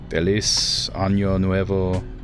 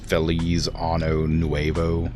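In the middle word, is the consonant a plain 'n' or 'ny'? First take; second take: ny; n. First: The middle word has an 'ny' sound. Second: The middle word has a plain 'n' sound. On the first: It means happy new year. The speaker calls it right. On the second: It sounds like wishing a happy new anus. The speaker calls it wrong.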